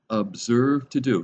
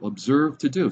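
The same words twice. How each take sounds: First: "Observe to do" said slowly, each word weighed; stress on observe to do. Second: Said in the usual way. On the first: Shown as a demonstration. Preacher slowing down to press "Observe to do" on the listeners. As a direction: lean on "Observe to do" to make it sink in. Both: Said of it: "Not just do it, but be careful".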